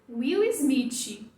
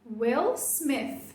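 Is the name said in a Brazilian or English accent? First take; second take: Brazilian; English. First: The name is said with Brazilian Portuguese sounds. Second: The name is said with English sounds. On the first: The speaker calls it wrong. "eu alcancei [name]" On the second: The speaker calls it right. "o objetivo era [name]"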